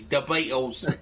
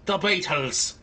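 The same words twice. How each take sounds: First: It is said in a Cockney accent. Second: It is said in a Scottish accent. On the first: "it's English, but it's Cockney" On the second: "A Scottish accent would be"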